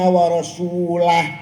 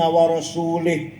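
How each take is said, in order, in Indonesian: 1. Kata terakhir berakhir dengan bunyi 'ah'. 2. Kata terakhir berakhir dengan bunyi 'ih'. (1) "Bacanya harus"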